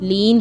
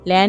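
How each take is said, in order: First: The vowel is a long 'ee'. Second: The vowel is an 'ai' sound. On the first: The speaker calls it right. "लीन पढ़ेंगे" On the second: The speaker calls it wrong. "लैन नहीं पढ़ेंगे, तो ये भी गलत है"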